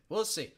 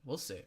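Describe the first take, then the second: First: "We'll see" said higher and louder. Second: Said in the usual way. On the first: Shown as a demonstration. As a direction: punch up "We'll see" brightly.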